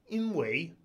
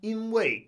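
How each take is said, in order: First: The syllable wei has a rising second tone. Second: The syllable wei has a falling fourth tone. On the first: "Some people say it like that" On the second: "I noticed that wei tends to be fourth tone when it's in yinwei"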